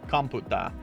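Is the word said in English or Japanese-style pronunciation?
Japanese. It ends in a plain open a vowel. This is the form listeners expect. The speaker calls it right. "They specifically want me to say computa"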